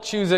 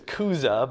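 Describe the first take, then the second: First: The name begins with a ch sound. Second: The name begins with a k sound. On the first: This is how the name looks in English spelling. "we'll call it Chuza because that's what it looks like" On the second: This is how the name is said in Greek. "There's no CH in Greek. It's Kuza"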